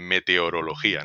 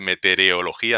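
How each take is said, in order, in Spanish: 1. La palabra se pronuncia con la sílaba central estándar. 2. La palabra se pronuncia con la sílaba central alterada. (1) "en vez de" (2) "parece que a muchas personas les sale decir"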